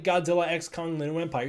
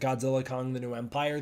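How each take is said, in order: First: The X between the names is spoken aloud. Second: The X between the names is left silent. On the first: The speaker calls it right. "The title's clearly" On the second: The speaker calls it wrong. "Adam Wingard pronounces it"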